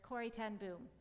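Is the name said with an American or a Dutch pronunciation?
American. The name is said with American English pronunciation.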